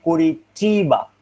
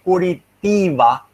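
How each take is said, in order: First: "Curitiba" with CH for the T, koo-ree-CHEE-ba; palatalized T. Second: "Curitiba" with a hard T, koo-ree-TEE-ba; unpalatalized T. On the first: Teacher showing what speakers really say, "Curitiba" with CH. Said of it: "but they say Curitiba instead". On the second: Teacher showing the expected form, "Curitiba" with plain T. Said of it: "they are supposed to say Curitiba". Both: Shown as a demonstration.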